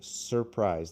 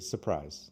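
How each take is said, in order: First: The R in the first syllable is pronounced. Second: The R in the first syllable is dropped. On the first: The speaker calls it wrong. "almost no American English speakers say surprise" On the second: The speaker calls it right. "They say surprise. They cut the R"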